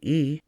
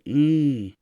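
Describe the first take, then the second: First: The vowel is plain, not nasal. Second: The vowel is strongly nasal. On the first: "Instead of saying E" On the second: "strongly nasal"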